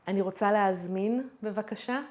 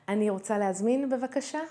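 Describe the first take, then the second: The two takes are said the same way.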